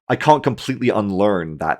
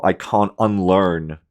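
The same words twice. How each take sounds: First: Said in the usual way. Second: Slow, heavy "can't" in "I can't unlearn"; stress on can't. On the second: Real, not acted. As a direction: lean slowly on "can't".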